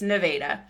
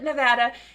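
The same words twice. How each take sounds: First: It is said the way locals say it. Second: It is said the way locals do not say it. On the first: This is how the Missouri town's residents say it. The speaker calls it right. "it's Nevada" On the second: This is how the state name is usually said. The speaker calls it wrong. "they don't call it Nevada"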